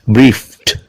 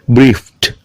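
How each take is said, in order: Both takes have the same delivery.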